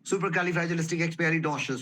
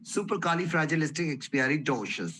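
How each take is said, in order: First: The word is said very quickly. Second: The word is said at a moderate speed. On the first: "इसकी speed और बढ़ा देंगे।" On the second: "अब इसकी speed बढ़ाते रहेंगे धीरे धीरे।"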